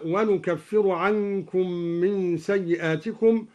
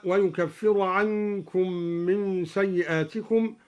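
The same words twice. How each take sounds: First: ونكفر said "wa-nukaffir", starting on n; nun of majesty. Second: Said in the usual way. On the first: Shown as a demonstration. Teacher demonstrating al-Duri, ونكفر with nun for ya. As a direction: open ونكفر with nu instead of yu. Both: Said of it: "قرأ الدوري بنون العظمة هكذا".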